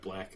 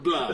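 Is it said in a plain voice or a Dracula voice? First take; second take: plain; Dracula. First: It is said in a plain voice. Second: It is said like Dracula's voice.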